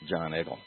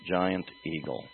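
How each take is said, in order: First: The first word is squeezed into one short syllable. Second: Each syllable of the name is said distinctly. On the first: The speaker calls it wrong. "that Pittsburghese thing and just elide them through" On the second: The speaker calls it right. "how clearly I enunciate the name"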